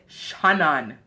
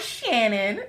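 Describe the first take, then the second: First: The name is said in a Jamaican accent. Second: The name is said in an American accent.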